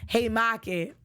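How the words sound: It is said in a Boston accent.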